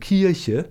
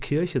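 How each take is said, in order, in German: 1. Das Wort hat eine regionale Bielefelder Aussprache. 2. Das Wort wird standarddeutsch ausgesprochen. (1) "sondern Kirche" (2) "der in Bielefeld auch nicht Kirche sagt"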